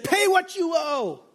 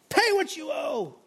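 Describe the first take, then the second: First: Raised, slow demand, voice a touch higher; mock choking demand. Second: Pitched well higher, slow, pressing the repeat; harder mock demand. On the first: The servant demands his debt while choking his fellow, a slow mock threat. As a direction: squeeze the words out like a creditor throttling his debtor. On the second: The servant throttles his fellow and repeats the demand higher. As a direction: repeat it tighter, as if the grip is closing.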